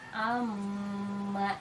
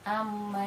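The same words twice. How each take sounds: First: The nasal m is held for a long time. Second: The nasal m is short, not held. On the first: The speaker calls it right. "harus ditahan sampai tadi tiga uh, harokat" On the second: The speaker calls it wrong. "tidak amma yatasaalun, hanya tasydid saja begitu, tanpa disertai gunnah, tidak begitu"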